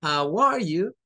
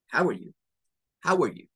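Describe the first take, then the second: First: "How are you" slowly with "are" fully sounded; higher, careful "How are you", each word distinct; textbook separated words. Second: "How are you" short and run together; "are" swallowed into "How", then a quick "you"; linked everyday pronunciation. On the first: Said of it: "siempre sus teachers les han dicho". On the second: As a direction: squeeze "How are you" into one word. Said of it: "Se une el how y el are". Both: Shown as a demonstration.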